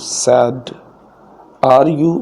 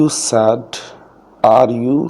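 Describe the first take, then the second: Both takes have the same delivery.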